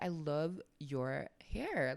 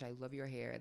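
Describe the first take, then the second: First: The compliment sounds exaggerated and fake. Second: The compliment sounds natural and sincere. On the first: The praise is not really meant. The speaker calls it wrong. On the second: The praise is really meant. The speaker calls it right.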